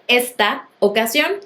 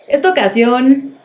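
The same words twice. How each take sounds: First: A small pause separates the two words. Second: The two words run together without a pause. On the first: The speaker calls it right. "lejos de hacer una pequeña pausa entre ambas palabras" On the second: The speaker calls it wrong. "es común que las personas digan"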